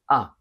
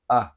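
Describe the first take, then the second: First: The vowel is open and bright. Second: The vowel is more relaxed and lazy. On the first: "In British English, it's fairly open and bright" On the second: "In American, it's more something like uh ... It's lazier"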